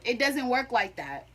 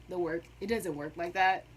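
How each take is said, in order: First: Said in the usual way. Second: It doesn't work like that said softer and lower, muttered to herself; quiet repeat. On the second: Shown as a demonstration. Student repeating her point to herself, soft and low. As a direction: mutter it again under your breath.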